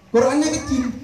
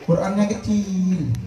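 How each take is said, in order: First: Qurannya hit higher and harder; preacher repeats Qurannya kecil higher to scold the crowd, stressing Qurannya. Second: Said in the usual way. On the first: Shown as a demonstration.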